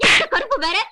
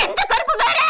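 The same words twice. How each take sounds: First: Said in the usual way. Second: எந்த கருப்பு வேற said higher with a push on வேற; வேற lifted and pressed in the repeated question; exasperated repeat. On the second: Acted.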